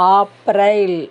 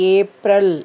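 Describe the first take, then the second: First: The month is said the Hindi way. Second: The month is said the English way. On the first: "ஹிந்தியில் ஆ ஆ போடணும்" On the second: "இங்கிலீஷில் ஏப்ரல்"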